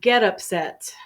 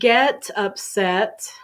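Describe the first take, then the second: First: The T in 'get' is soft, almost silent. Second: The T in 'get' is fully pronounced. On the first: "the T is very soft or almost silent" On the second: "instead of saying"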